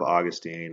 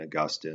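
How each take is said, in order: First: The name is said the common everyday way. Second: The name is said the scholarly way. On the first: "Instead of" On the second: "the more scholarly pronunciations of names"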